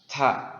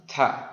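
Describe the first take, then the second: No difference in how they are said.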